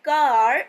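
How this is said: It is said with an American accent.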